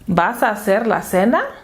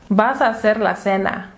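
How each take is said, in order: First: The voice rises at the end. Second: The voice falls at the end. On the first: It is a question. "puede convertirse en pregunta con solo cambiar la entonación" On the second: It is a statement. "una declaración"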